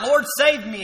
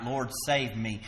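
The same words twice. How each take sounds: First: Loud, high desperate cry for help. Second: Slow, soft pleading; a hushed, drawn-out plea; quiet plea. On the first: Peter sinking, calling out to Jesus, loud desperate cry. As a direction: call out like a sinking man. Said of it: "And he cries out". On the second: Preacher retelling Peter's plea, slow and soft. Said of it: "he cried out". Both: Retold or imitated.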